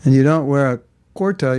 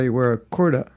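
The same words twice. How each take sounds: First: Kurta said the ordinary way, falling; set-up take before the joke; the usual way. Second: Kurta in a light mock New Zealand accent, rising; a playful New Zealand twist on kurta; teasing New Zealand accent, barely put on. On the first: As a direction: kurta stressed and falling at the end. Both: Shown as a demonstration. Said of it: "If you're from New Zealand".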